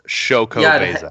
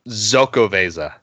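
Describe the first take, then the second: First: The name starts with a 'ch' sound. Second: The name starts with a 'z' sound. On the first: The speaker calls it right. "it said pronounced Chocovesa" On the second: The speaker calls it wrong. "every time he called it Zocovesa. And I always thought that can't be right"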